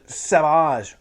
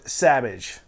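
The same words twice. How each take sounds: First: The name does not rhyme with cabbage. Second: The name rhymes with cabbage.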